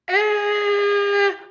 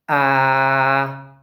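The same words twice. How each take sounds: First: It is said at a high pitch. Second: It is said at a low pitch.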